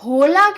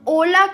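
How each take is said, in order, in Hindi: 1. शब्द की शुरुआत में एक सुनाई देने वाली h ध्वनि है। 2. शब्द सीधे स्वर की ध्वनि से शुरू होता है। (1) "हम होला क्यों नहीं बोलते?" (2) "क्योंकि एच हमेशा साइलेंट होता है।"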